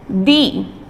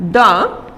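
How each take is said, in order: First: The vowel is long, like 'thee'. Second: The vowel is short, like 'thuh'. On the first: The next word begins with a vowel sound. "with a long sound" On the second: The next word begins with a consonant sound. "with a short sound"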